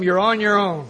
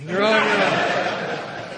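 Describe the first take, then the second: First: Said in the usual way. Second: Drawn out through laughter; slowed, laughing repeat. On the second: Shown as a demonstration. Warning the new guys, drawn out through a laugh. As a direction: stretch it while laughing. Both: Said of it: "If you use them".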